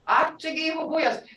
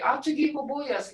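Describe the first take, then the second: First: It is said in a stern, insistent tone. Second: It is said in a soft, affectionate tone. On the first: You had better find your clothes now. "I'm saying it in a way, you better look for your clothes" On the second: A gentle, caring request to find the clothes. "even in a loving way"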